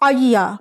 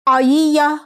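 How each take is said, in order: First: The two y sounds merge into one doubled y. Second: The two y sounds are said separately. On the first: "इदगाम करके... दोनों या को जोड़ देंगे" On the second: "दो या यहाँ भी"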